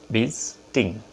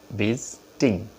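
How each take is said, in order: Both takes have the same delivery.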